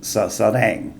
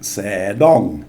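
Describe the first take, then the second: First: The first syllable has a short 'a' vowel. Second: The first syllable has an 'e' vowel. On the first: The speaker calls it right. "there's an implied vowel, a short up, between these two consonants, so we get sadang" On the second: The speaker calls it wrong. "I'll probably put an implied vowel in the middle, so I'll get something like sedong, but it's not"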